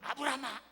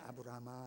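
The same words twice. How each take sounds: First: It is called in an urgent, hurried way. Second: It is called in a calm, relaxed way.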